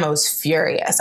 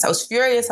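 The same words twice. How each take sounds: First: Said in the usual way. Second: "furious" pushed up high in pitch; stressed anger. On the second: Shown as a demonstration. Telling the listener how angry she was, "furious" stressed high. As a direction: lean hard into "furious", higher.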